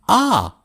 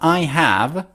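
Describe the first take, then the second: First: The words shrink to a single vowel sound. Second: Both words are said fully and separately. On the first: "when they speak fast, instead of I've, they say ah" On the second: "Instead of I have"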